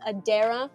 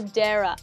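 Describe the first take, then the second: First: The name is said with three syllables. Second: The name is said with two syllables. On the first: The speaker calls it right. "It's Adara" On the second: The speaker calls it wrong. "my brain reads that and it's like, ah, and I'm so sorry"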